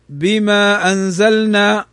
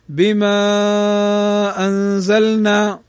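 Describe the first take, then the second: First: The long vowel is held for two counts. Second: The long vowel is held for five counts. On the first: "فيجوز أن نقول بحركتين" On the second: "ويجوز أيضا قالوا ب5 حركات"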